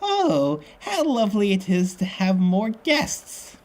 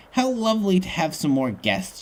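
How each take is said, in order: First: Put-on high, slow, falsely sweet old lady; phony sweet voice. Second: Slightly higher, falsely sweet; a mild attempt at fake sweetness; phony sweet voice. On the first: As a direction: lay on the fake sweetness, pitched right up. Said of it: "I gotta say it like that". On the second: A narrator's reading. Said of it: "she says in a phony, sweet voice".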